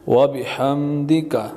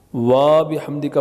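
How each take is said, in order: First: The first vowel 'wa' is kept short. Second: The first vowel 'wa' is drawn out long. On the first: The speaker calls it right. "दोबारा पढ़ें" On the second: The speaker calls it wrong. "वा बिहम्दिका पढ़ना गलत है, वाव को खामखा नहीं खींचना"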